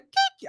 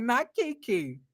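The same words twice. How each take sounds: First: Kiki shrieked much higher in disbelief; shocked recognition. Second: Disbelieving. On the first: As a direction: yelp Kiki like you can't believe who walked in. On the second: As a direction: mutter Not Kiki in dry disbelief. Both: Retold or imitated. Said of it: "I was like".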